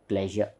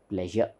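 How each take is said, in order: The two takes are said the same way.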